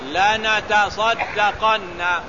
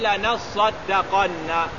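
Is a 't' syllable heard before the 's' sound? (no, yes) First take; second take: yes; no. First: A separate 'ta' syllable comes before the 's'. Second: The 't' merges into a doubled 's' sound. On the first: This is the original underlying form of the word. "Artinya asalnya lanatasaddaqanna" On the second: This is the actual form after assimilation. "ditukar ta itu jadi sad. Jadi lanasaddaqan"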